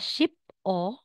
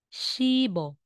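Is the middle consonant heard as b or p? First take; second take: p; b. First: A clipped p, then a separate o. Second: A soft b linked straight into o. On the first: The speaker calls it wrong. "hindi po siya ship o" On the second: The speaker calls it right. "kundi magiging shibo"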